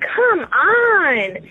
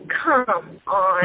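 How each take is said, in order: First: It sounds annoyed. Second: It sounds disappointed.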